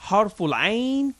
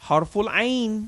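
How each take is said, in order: No difference in how they are said.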